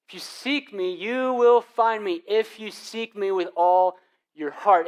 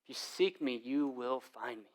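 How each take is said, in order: First: Louder, higher, slow preached promise; preaching emphasis. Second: Quiet reading. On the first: Pastor repeating God's promise to the church, loud and slow. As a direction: proclaim If you seek me slowly and boldly. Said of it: "repeats the promise". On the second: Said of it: "God says this". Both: Shown as a demonstration.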